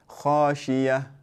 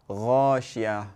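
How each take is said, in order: First: The ayn sound is replaced by a y sound. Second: It starts with a voiced gh sound instead. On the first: "make the ayn into into a ya ... That's incorrect" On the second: "sometimes you hear people recite غاشية"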